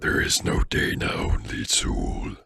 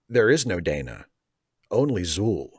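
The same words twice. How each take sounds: First: It is said in a scary voice. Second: It is read in a normal voice.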